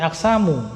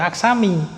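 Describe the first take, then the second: First: The word ends with an u vowel. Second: The word ends with an i vowel. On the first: The speaker calls it right. "tapi aksamu" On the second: The speaker calls it wrong. "tidak kita baca aksami"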